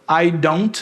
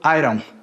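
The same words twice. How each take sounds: First: The d in don't is a full d. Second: The d in don't is a quick tap. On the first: "esse D aqui virou esse R" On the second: "virou o tap, que é o R"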